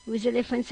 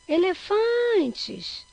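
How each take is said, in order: First: Said in the usual way. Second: Elefantes called out, FAN very long, high and loud; stress on FAN. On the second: Shown as a demonstration. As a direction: call "elefantes" stretching the FAN. (elefantes chamado, com o FAN longo e forte) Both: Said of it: "é o fã".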